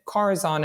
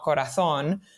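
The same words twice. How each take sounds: First: The final syllable is not stressed. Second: The final syllable is stressed. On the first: It is the company's chosen name. "it doesn't have an accent on the O" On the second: It is the Spanish word for heart. "and not Corazon"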